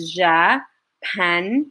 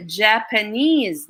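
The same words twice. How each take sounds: First: "Japanese" split slowly into three beats; syllable by syllable. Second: Said in the usual way. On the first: Shown as a demonstration. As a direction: say "Japanese" as Ja, pa, nese with pauses between. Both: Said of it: "How many syllables are there".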